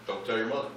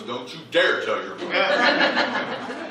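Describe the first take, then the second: First: Soft, low-key retold warning; understated imitation of Dad's confidential catchphrase; conspiratorial aside. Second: "dare" stretched out and leaned on; slow, raised mock warning, hitting "dare" hard; emphatic warning. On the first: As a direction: drop it quietly, like a shared secret. Dad's repeated secret saying. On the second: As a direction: draw out "dare" as an acted threat. Punchline version of dad's warning.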